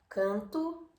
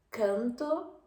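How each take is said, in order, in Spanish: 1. La vocal es nasalizada, al estilo portugués. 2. La vocal es oral y de apertura moderada. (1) "canto portugués" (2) "canto español"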